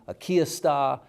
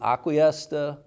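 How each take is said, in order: First: It is pronounced as two Spanish words. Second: It is run together in an anglicized way. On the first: The speaker knows Spanish but is not local. "you speak a little Spanish, but you're not from here" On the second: The speaker is from this place. "that's correct around here"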